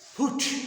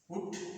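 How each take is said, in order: First: The p is said with a puff of air. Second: The p is said without a puff of air. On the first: The speaker calls it right. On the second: The speaker calls it wrong.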